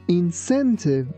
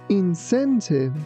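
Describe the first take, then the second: First: The c sounds like s. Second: The c sounds like s.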